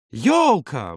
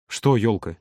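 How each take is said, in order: First: Animated burst with a falling tune; sudden exclamation. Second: Low, uncomprehending query; puzzled question. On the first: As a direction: blurt it as an idea strikes. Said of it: "вдруг воскликнул Юра". (внезапный радостный возглас) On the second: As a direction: ask it calmly, not following. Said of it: "не понял Володя". (недоумённый вопрос) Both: A narrator's reading.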